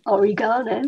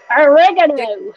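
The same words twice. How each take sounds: First: Oregano with the stress on GAH; measured British o-ree-GAH-no for oregano; British pronunciation. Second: Oregano drawn out loud and high, stressed on REG; big, slow American o-REG-a-no for oregano; North American pronunciation. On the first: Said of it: "we say oregano". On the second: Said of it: "Americans and Canadians say it". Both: Shown as a demonstration.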